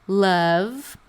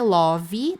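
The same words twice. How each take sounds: First: The vowel is a short, closed 'uh' sound. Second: The vowel is a more open 'o' sound. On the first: The speaker calls it right. "é um sonzinho de A fechado" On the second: The speaker calls it wrong. "não é love"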